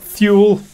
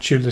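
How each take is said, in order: First: The word begins with a th sound. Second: The word begins with a plain t sound. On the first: The speaker calls it wrong. "I always thought Thule, but then it's a word I've only ever read" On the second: The speaker calls it right. "now you pronounced it Tula Society"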